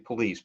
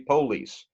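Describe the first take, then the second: First: The stress is on the second syllable. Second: The stress is on the first syllable. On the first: This is how northerners say it. "we tend to put the emphasis, the accent on a later syllable" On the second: This is how southerners say it. "they tend to put the accent on the first syllable"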